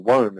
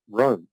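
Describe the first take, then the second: First: WOME with the R turned into a W; Monty Python. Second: Said in the usual way. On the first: Retold or imitated. Lecturer joking about a past lifetime in Rome, Monty Python-style WOME with a W. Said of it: "as they say in Monty Python".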